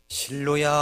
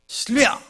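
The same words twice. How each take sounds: First: The name is called softly and gently. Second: The name is called sharply and short.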